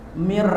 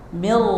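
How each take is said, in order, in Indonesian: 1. Kata itu diucapkan dengan dengung sengau yang panjang. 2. Kata itu diucapkan cepat, tanpa dengung sengau. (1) "Coba dengungkan, enak enggak?" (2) "Mir gitu ya bacanya"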